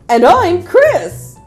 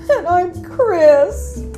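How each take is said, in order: First: It is said in a comical way. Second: It is said in a sad way.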